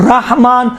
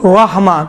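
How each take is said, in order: First: رحمان with an open, unrounded "rah"; "rah-maan" for رحمان, no w-colour; plain open ra. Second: رحمان with a thick, w-like "ra"; heavy R colouring the vowel in رحمان; heavy rounded ra. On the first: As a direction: open up the first syllable of رحمان. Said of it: "دونوں صحیح ہے". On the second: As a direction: round رحمان towards "rawh-maan". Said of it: "اگر رحمان پڑھا جائے، واو جیسا". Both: Shown as a demonstration.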